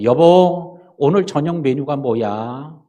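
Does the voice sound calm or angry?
calm. It is asked in a calm voice.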